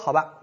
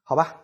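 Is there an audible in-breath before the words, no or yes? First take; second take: no; yes. First: It is said directly without a drawn breath. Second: An audible breath is drawn before speaking.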